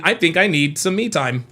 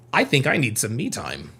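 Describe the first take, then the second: First: Said in the usual way. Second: Mock-guilty, quieter admission; hushed confession. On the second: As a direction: drop the voice, softer, like a guilty secret.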